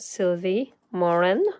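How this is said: The name is said with a French accent.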